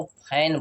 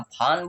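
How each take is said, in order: First: फैन with a wide AE; correct open-a version. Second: फान with a long AA; wrong aa version. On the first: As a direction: say फैन as English fan. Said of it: "F A N को फैन बोलते हैं". (खुले ऐ से "फैन") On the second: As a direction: mispronounce fan as फान. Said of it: "क्या हम फान बोलते हैं". (बड़े आ से गलत "फान") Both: Shown as a demonstration.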